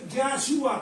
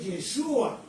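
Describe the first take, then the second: First: The first syllable has an a vowel. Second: The first syllable has an e vowel. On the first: "con A" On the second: "Ye o Ya"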